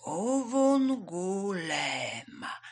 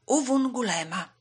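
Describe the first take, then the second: First: Uwungulema very slowly, syllable by syllable; tortoise drawing out Uwungulema carefully; slow repetition. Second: Said in the usual way. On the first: A narrator's reading. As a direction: stretch out every vowel of Uwungulema. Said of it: "Żółw powtórzył powoli". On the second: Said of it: "powtórzył powoli".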